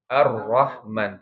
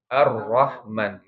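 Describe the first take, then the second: First: The r has a light, brief trill. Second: The r has a light, brief trill.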